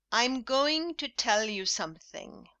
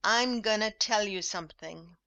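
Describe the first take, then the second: First: "going to" said out in full, every syllable; careful textbook "going to"; formal full form. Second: "gonna" squeezed into a quick "gunna"; relaxed casual "gonna", not "going to"; informal gonna. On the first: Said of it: "formal English with full forms". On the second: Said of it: "repeat this informal English". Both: Shown as a demonstration.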